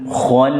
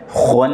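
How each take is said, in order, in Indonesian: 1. Vokal setelah kh terdengar gelap, seperti o. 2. Vokal setelah kh terdengar gelap, seperti o.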